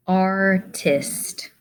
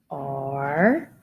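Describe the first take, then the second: First: Said in the usual way. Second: "Art-ist" broken into two separate beats; split into syllables. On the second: Shown as a demonstration. Teacher to young spellers, splitting "Art-ist" into syllables. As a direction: say "Art-ist" with a clear break between syllables.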